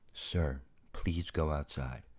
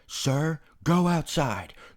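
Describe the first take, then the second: First: The voice is flat and emotionless. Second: The voice is loud and angry.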